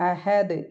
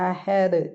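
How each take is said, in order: Both takes have the same delivery.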